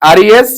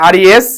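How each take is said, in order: Both takes have the same delivery.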